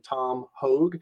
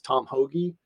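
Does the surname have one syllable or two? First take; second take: one; two. First: The surname is said as one syllable. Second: The surname is said as two syllables. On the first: This is how the speaker says the name. "I pronounce the guy's name" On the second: This is how most people say the name. "everybody says"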